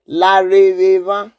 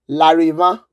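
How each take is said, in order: First: Every syllable of the word is pronounced. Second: One syllable of the word is dropped. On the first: "You can say in Edo language Lareva" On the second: "or the shortened form"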